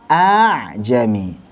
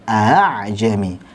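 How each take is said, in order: First: The hamzah is replaced by a long drawn vowel. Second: The second hamzah is light, between stop and vowel. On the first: "Kalau hamzah dengan mad, a dibaca panjang" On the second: "ketika dibaca tashil sangat mudah, seperti kita seret saja"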